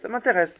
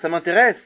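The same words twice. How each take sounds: First: It is said in an uninterested tone. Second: It is said in a genuinely interested tone. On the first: The speaker is not actually interested. "l'autre, il est pas intéressé" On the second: The speaker really is interested. "un, il est intéressé"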